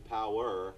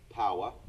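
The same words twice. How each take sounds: First: It is said in a standard American accent. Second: It is said in a thick New York accent. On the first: The speaker calls it right. "learn how to say power" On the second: The speaker calls it wrong. "instead of power"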